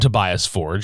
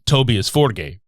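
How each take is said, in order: First: The name is said with English pronunciation. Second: The name is said with Swedish pronunciation. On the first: This is how most people say the name. "Most people call him" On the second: This is how the name is said in his home country. "in his country of Sweden, it's actually"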